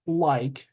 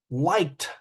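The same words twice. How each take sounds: First: Said in the usual way. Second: "Liked" in one syllable, T at the end; added T ending. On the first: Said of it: "the word in present tense". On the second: Shown as a demonstration. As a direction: model "Liked" with an extra final T. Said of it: "add an extra sound".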